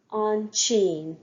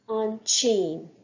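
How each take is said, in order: Both takes have the same delivery.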